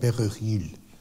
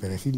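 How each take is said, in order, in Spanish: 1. Se dice con acento francés. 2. Se dice con acento español nativo. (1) "decía perejil" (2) "no sabía decir perejil"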